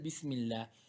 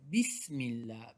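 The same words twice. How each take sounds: First: The s sound is light and plain. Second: The s sound is pressed with force. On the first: The speaker calls it wrong. "don't say simple Bismillah" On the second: The speaker calls it right. "apply a little bit force on the scene"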